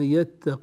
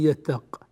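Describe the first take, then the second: First: The final q takes a short i, linked onward. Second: The word ends abruptly with no final vowel. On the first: The word runs on into the next word. "وإذا وصلنا نكسر القاف كسرا ولا نأتي بالياء" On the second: The speaker pauses after this word. "نقف عليه فنقول ومن يتق"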